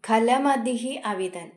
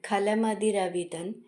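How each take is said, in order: First: The two words are said separately. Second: The two words are run together.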